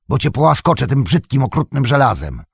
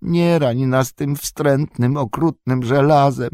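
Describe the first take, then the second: First: Mocking threat. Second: Slow, high creature whine on "okrutnym żelazem"; whining Gollum. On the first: Sam mocks Gollum's own words. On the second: Acted. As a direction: plead like a pitiful wretched creature. Gollum pleads for his life.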